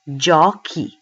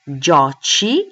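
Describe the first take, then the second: First: The consonant before the final vowel is hard. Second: The consonant before the final vowel is soft. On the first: The speaker calls it right. "we'll keep the sound k" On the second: The speaker calls it wrong. "that can't be because the sound is k"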